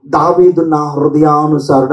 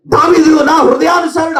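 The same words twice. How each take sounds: First: Said in the usual way. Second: దావీదు నా హృదయానుసారుడు called out louder and higher; say it loudly. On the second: Shown as a demonstration. Preacher leading the congregation to say దావీదు నా హృదయానుసారుడు loudly. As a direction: proclaim దావీదు నా హృదయానుసారుడు boldly to the hall. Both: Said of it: "గట్టిగా చెప్పండి ఆ మాట".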